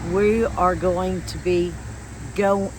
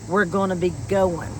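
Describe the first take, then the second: First: The final g sound of going is pronounced. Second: The final g sound of going is dropped. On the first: "But you would say it" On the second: "if you hear how I said it, No G"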